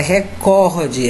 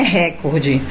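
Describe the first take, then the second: First: "recorde" stressed on COR; correct stress demo. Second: "recorde" stressed on RE; rejected "recorde", first syllable stressed; wrong stress demo. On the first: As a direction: say "recorde" as re-CÓR-de. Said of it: "A palavra é recorde". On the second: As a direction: say "recorde" as RÉ-cor-de. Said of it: "Porque não é recorde". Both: Shown as a demonstration.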